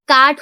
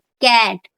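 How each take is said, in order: First: The vowel is an open back 'aa' sound. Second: The vowel is a flat front 'ae' sound. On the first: The speaker calls it wrong. "अगर हम लोग आ लगा देते कैट में तो काट हो जाएगा" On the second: The speaker calls it right. "कैट में ए की आवाज आ रही है"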